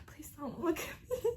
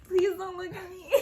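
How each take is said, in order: First: Unvoiced whisper, pleading under the breath; whispered plea. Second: Pleading while breaking into laughter; laughing plea. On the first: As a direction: beg in a whisper so mom won't notice. Silently begging mom not to look. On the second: Retold or imitated. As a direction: beg again, cracking up. Repeats the plea, now laughing.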